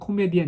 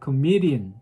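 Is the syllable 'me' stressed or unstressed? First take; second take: unstressed; stressed. First: All syllables are even, with no stress on me. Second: The syllable me carries strong stress. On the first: This is the Korean loanword pronunciation. "우리말로는 코미디언 이렇게 얘기하지만" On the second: This is the English pronunciation. "영어로는 코미디언. ... me에다가 스트레스 주잖아요"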